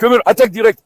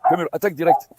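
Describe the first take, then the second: First: Barked-out attack order, louder; loud command. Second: Said in the usual way. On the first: Real, not acted. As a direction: order the dog in firmly. (ordre lancé fort au chien)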